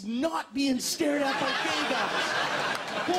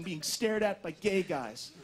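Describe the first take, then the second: First: "not" stretched and punched in a slow, loud punchline; stress on NOT. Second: Said in the usual way. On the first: Acted. Comedian revealing what is worse, drawn-out stress on "not". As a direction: lean hard and slowly on "not".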